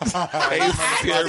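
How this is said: It is said imitating his friend's accent.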